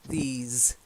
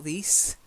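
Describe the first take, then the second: First: It has a long vowel and buzzing end. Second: It lacks the long vowel and buzzing end. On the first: The speaker calls it right. "These is long E and a Z, sort of vibrating um, sound" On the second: The speaker calls it wrong. "Not these"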